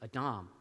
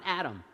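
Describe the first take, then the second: First: Adam as uh-DAHM, stress on the last syllable; Hebrew pronunciation. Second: Adam as in the English name, AD-um; wrong English name. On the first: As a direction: say Adam as ah-DAHM, open final a. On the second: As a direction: stress the first syllable, Adam like the name. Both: Shown as a demonstration. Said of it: "Not a proper noun, not Adam".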